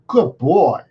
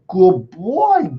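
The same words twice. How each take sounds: First: The voice sounds even and neutral. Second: The voice sounds emotional and exaggerated. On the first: The speaker calls it right. "try to provide in a neutral tone" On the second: The speaker calls it wrong. "It wasn't like, oh, good boy ... Not like that. You see, they're different"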